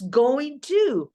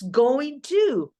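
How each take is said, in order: First: It is said as the full form going to. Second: It is said as the full form going to.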